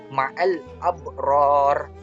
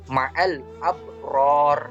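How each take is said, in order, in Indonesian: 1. Kata terakhir berakhir dengan bunyi konsonan. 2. Kata terakhir berakhir dengan bunyi konsonan.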